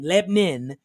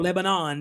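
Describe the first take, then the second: First: The middle syllable is dropped, sounding like Lebnin. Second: All three syllables are clearly pronounced. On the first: This is how locals say it. "They say Lebanon, L E B N I N" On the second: This is not how locals say it. "they don't say"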